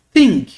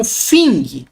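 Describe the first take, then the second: First: Thing with a blown TH, never an F; tongue between teeth to start Thing; aspirated TH. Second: Thing mispronounced as "fing"; wrong F sound. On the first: Teacher correcting the F mistake, aspirated TH. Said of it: "T H aspirado". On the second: Teacher warning students not to pronounce it so, F sound. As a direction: swap the TH of thing for an F. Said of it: "Não tem som de F". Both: Shown as a demonstration.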